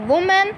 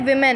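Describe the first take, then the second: First: The first syllable sounds like 'woo'. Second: The first syllable sounds like 'wi'. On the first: The speaker calls it wrong. "वुमेन नहीं" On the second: The speaker calls it right. "बोलते विमेन है"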